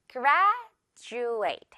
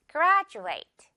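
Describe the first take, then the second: First: "graduate" said with a plain d, GRAD-oo-ate, as the mistake; wrong d in graduate. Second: "graduate" said GRAD-joo-ate, with a j sound; right j in graduate. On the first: Teacher showing students the wrong "graduate", hard d. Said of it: "graduate가 아니라요". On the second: Teacher showing students the right "graduate", j sound. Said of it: "이렇게 발음이 나는 거죠". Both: Shown as a demonstration.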